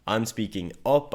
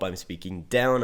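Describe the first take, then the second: First: I'm speaking "up" with the voice lifting on up; rising tune. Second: I'm speaking "down" with the pitch dropping on down; falling tune. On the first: Coaching on tonality, showing the voice going up. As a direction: let the line climb at the end. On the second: Coaching on tonality, showing the voice coming down. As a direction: let the line fall away at the end. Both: Shown as a demonstration.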